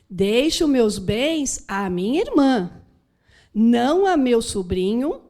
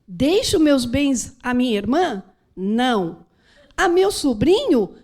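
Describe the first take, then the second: First: Não runs straight into a meu sobrinho. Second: There is a clear pause after não.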